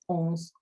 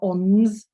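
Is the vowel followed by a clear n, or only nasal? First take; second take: nasal; clear n. First: The vowel is nasal with no clear n. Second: A clear n consonant follows the vowel. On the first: The speaker calls it right. "It's onze" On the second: The speaker calls it wrong. "it's not ons with a n"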